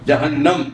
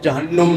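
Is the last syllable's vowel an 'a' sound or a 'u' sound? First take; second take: a sound; u sound. First: The last syllable has an 'a' vowel. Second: The last syllable has a 'u' vowel. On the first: The speaker calls it right. "तो जहन्नम लफ्ज़ है" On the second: The speaker calls it wrong. "जहन्नुम नहीं है"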